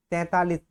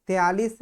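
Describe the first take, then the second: First: तैतालीस said as "tain-taa-lis", nasal first syllable; correct form. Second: तैतालीस said as "te-aalis", without the middle t; wrong form. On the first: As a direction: sound both t's in तैतालीस. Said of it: "शुद्ध होता है आपका". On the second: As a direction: drop the second t in तैतालीस, "te-AA-lis". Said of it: "ये गलत लिखा है". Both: Shown as a demonstration.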